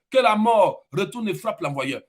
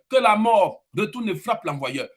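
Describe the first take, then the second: The two takes are said the same way.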